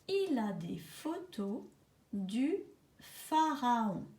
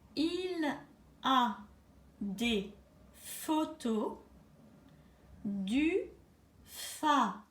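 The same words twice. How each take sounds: First: The sentence is said a bit faster. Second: The sentence is said slowly, dictation pace.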